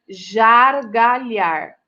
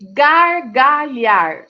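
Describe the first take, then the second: First: The word starts with a soft zh sound. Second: The word starts with a hard g sound. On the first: The speaker calls it wrong. "Se eu colocar um J aqui" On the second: The speaker calls it right. "Palavras com G"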